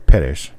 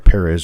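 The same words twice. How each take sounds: First: The name is pronounced with Spanish sounds. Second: The name is pronounced with English sounds. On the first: "the Spanish form" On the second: "in an anglicized form"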